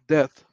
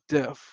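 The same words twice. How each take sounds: First: The word ends with a th sound. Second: The word ends with an f sound.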